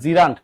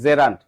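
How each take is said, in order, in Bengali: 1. প্রথম স্বরবর্ণের উচ্চারণ 'ee'-এর মতো। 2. প্রথম স্বরবর্ণের উচ্চারণ 'eh'-এর মতো। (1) "অনেকে উচ্চারণ করেন জিরান্ট, কোনো জিরান্ট না" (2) "এটা হচ্ছে কি জেরান্ট"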